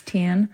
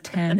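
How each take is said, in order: First: Ten said with the E turned to an I, like tin; accent vowel shift. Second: Said in the usual way. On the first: Shown as a demonstration. Actor shows the character's accent, ten as tin. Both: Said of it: "they turn the, like, E's into I's".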